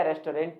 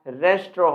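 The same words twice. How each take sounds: First: "रेस्टोरेंट" in three parts, res-to-rent; common mispronunciation. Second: "रेस्टोरेंट" as res-tro, silent final nt; preferred pronunciation. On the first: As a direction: sound a full "to" and "rent" in "रेस्टोरेंट". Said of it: "नहीं होता". ("रेस्टोरेंट" को रेस-टो-रेंट बोलें) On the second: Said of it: "होता है दोस्तों". ("रेस्टोरेंट" को 'रेस्ट्रो' बोलें) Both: Shown as a demonstration.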